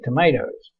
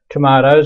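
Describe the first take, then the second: First: It is said with an American accent. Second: It is said with an Australian accent.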